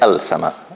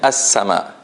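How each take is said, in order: First: An l sound is pronounced before sama. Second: The l is silent and the s doubled. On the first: The speaker calls it wrong. "I don't say al sama" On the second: The speaker calls it right. "I'm saying as sama"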